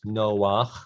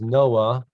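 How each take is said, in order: First: The name ends with a guttural 'ach' sound. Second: The name ends on an open vowel. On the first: This is the Hebrew form of the name. "but in Hebrew it's Noach" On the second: This is the English rendering of the name. "People pronounce it as Noah"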